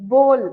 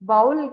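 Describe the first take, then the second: First: The word is said as one smooth syllable. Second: The word is drawn out into two syllables. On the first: The speaker calls it right. "Bowl அப்படி சொல்லணும்" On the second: The speaker calls it wrong. "பவுல் கிடையாது"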